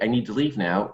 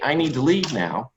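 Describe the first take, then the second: First: It is said with more energy. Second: It is said with the most energy. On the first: The speaker feels unheard and repeats it. "the more I'll repeat myself and the more energy I'll have behind what I'm saying" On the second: The speaker feels even more unheard. "the more I'll repeat myself and the more energy I'll have behind what I'm saying"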